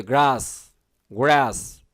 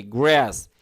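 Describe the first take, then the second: First: গ্রাস with British open "ah", "graas"; British pronunciation. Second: গ্রাস with American flat "æ", "græs"; American pronunciation. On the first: Teacher demonstrates for students, British pronunciation of গ্রাস. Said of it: "British উচ্চারণ হলে কি হতো?". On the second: Teacher demonstrates for students, American pronunciation of গ্রাস. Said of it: "American উচ্চারণ কি?". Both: Shown as a demonstration.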